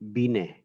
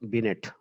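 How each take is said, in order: First: The name is said with a French pronunciation. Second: The name is said with an English pronunciation. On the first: The speaker calls it right. "this is a French name, and when we pronounce it, it will Binet" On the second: The speaker calls it wrong. "It not Binet"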